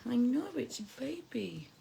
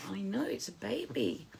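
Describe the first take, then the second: First: Whispering. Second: Said in the usual way. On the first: Real, not acted. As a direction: whisper it back softly. Repeated in a whisper.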